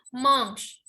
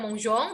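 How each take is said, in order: First: The ending is silent, with no nasal vowel. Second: The ending is read as a nasal vowel. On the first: The speaker calls it right. "ent itu tidak dibaca" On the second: The speaker calls it wrong. "bukan monjong"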